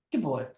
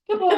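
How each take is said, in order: First: Said in the usual way. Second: High-pitched dog praise. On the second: Real, not acted. Owner praising her dog Rocky, high and laughing.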